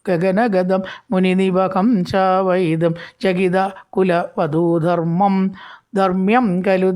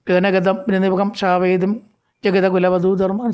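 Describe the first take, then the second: First: The line runs on into the next words. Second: The line breaks off after kulavadhudharmam. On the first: The verse keeps its proper rhythm. The speaker calls it right. "കൂടെ എടുക്കണം, അപ്പോഴേ തന്നെ അത് കിട്ടുള്ളൂ, rhythm കിട്ടുള്ളൂ" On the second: The verse loses its tune and rhythm. The speaker calls it wrong. "ചെല്ലുമ്പോൾ അതിനൊരു tune കിട്ടില്ല"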